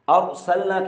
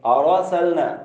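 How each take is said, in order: First: The R has no vowel after it. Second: The R is followed by an added vowel. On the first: The speaker calls it right. "रॉ साकिन है" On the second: The speaker calls it wrong. "और सलना की बजाय आरा सलना"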